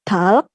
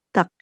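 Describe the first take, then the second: First: An l sound comes before the final k. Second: No l sound comes before the final k. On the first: The speaker calls it wrong. "bukan talk" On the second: The speaker calls it right. "tapi tak"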